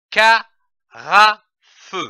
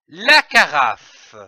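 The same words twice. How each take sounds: First: "carafe" as ca, ra, fe with pauses between; syllable by syllable. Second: Said in the usual way. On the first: Shown as a demonstration. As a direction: sound out "carafe" in three separate beats. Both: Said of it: "L'association de ces syllabes".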